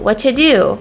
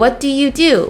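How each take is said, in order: First: The words blend together and 'you' becomes 'ya'. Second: Every word, including 'you', is said in full.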